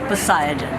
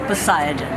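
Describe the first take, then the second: First: The name is said with an American pronunciation. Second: The same.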